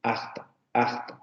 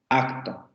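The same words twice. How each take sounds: First: Quiet acto with the k turned into a soft breathy fricative. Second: Acto with a plain stopped k; everyday acto; usual acto. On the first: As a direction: let the k in acto rub like a soft j. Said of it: "En algunas variantes se dice acto". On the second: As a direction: say acto as most speakers do, with a full k. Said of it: "Nosotros generalmente pronunciamos así". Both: Shown as a demonstration.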